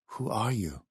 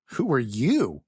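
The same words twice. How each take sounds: First: Put-on hushed, accented, wary question; soft question. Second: Higher, pointed counter-question with punch on "you"; defensive retort. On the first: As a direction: ask it softly, well below normal volume. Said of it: "he asked softly". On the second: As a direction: throw the question back defensively. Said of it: "Scott looked at him defensively". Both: A narrator's reading.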